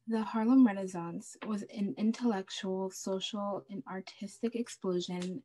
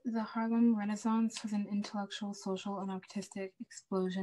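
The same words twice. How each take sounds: First: It is said slowly. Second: It is said at a normal pace.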